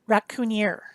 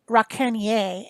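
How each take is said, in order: First: It is said with an English accent. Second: It is said with a French accent. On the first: The speaker calls it wrong. "not Raccoonier" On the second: The speaker calls it right. "you got to say it with a French accent because it's fancy"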